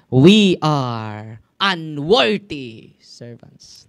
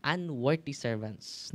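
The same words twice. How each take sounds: First: "We are unworthy servants" boomed out slowly and loudly; loud slow scripture. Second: Said in the usual way. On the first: Shown as a demonstration. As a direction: thunder the verse out word by word. (binibigkas nang malakas at napakabagal ang "We are unworthy servants") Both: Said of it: "Luke chapter seventeen, verse ten".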